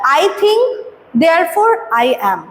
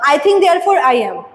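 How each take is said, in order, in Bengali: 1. 'think' এর পরে একটা ছোট বিরতি আছে। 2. 'think' এর পরে কোনো বিরতি ছাড়াই কথাটা চলে যায়। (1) "থিঙ্কের পর একটু থামতে হচ্ছে" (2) "যদি এরকম বলতো"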